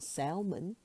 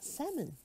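First: The L sound is pronounced. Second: The L sound is silent. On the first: The speaker calls it wrong. "not salmon" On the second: The speaker calls it right. "The L in salmon is silent. ... but salmon"

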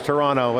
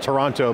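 First: Toronto is pronounced the local Canadian way. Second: Toronto is pronounced the American way. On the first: The speaker calls it right. "I'm glad you said it right" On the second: The speaker calls it wrong. "I call it Toronto, being the American that I am"

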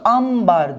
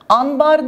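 First: The word is said with an m before b. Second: The word is said with an n before b. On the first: The speaker calls it right. "ambar diyoruz" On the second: The speaker calls it wrong. "Anbar demiyoruz"

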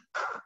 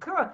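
First: The k sound has no vowel after it. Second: The k sound ends with a short vowel. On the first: The speaker calls it right. "it's k" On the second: The speaker calls it wrong. "a C isn't k"

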